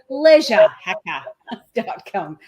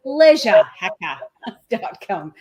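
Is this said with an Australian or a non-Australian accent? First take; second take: Australian; Australian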